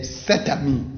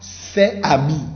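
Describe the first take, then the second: First: The words are linked together with a t sound. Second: The words are said separately, without linking. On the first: The speaker calls it right. "Il faut dire ça ensemble" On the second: The speaker calls it wrong.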